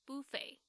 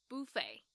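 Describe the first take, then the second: Both takes have the same delivery.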